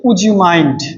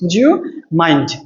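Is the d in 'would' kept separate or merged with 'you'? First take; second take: separate; merged. First: The d in would is kept separate. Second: The d merges with you into a j sound.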